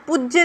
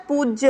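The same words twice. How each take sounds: First: पूज्य with a short u: puj-jya; wrong pronunciation. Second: पूज्य with a long oo: pooj-ya; correct pronunciation. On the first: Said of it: "पूज्य नहीं होता". (पूज्य को "पुज्य" जैसा बोलें) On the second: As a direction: stretch the oo in पूज्य. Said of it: "पूज्य होता है". (पूज्य में "पू" लंबा बोलें) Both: Shown as a demonstration.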